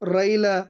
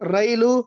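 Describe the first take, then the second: First: The word ends in an a vowel. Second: The word ends in a u vowel.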